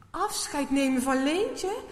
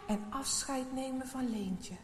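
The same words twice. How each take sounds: First: Louder, higher, startled repeat of Leentje; shocked echo. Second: Said in the usual way. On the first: A narrator's reading. Maarten repeating the helper's words in shock. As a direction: blurt it out in dismay. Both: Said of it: "Maarten schrikt ervan".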